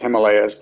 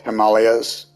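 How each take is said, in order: First: It is pronounced in the European way. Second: It is pronounced in the Indian way. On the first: "The the European way of saying it is" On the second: "The Indian way of saying it is"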